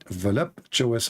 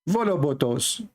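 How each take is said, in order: First: The word is said with a clear p sound. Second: The word is said with a b, no p. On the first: "it's far away from the way I say it" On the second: "the way I say it"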